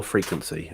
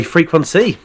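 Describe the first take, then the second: First: "Frequency" said the proper way, lower and softer; proper pronunciation. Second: Said in the usual way. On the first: Shown as a demonstration. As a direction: say "Frequency" as a low, quiet correction. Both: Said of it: "if you wanna say it properly".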